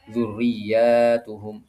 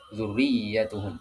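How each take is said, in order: First: The vowel after the doubled y is long. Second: The vowel after the doubled y is short. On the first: The word is read as plural. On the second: The word is read as singular. "iya-nya pendek ya"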